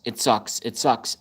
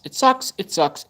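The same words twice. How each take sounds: First: Said in the usual way. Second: High squeaky whine on "It sucks"; whiny squeak. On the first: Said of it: "repeated complaint, flat". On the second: Real, not acted. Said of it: "mock high whine".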